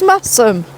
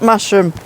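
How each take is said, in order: First: The middle consonant is a plain 's' sound. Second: The middle consonant is a 'sh' sound. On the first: The speaker calls it right. "it's Massam, without the H" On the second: The speaker calls it wrong. "it isn't Masham"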